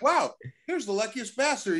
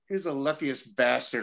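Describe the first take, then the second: First: It is said in a cheerful, admiring tone. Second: It is said in a bitter, venomous tone.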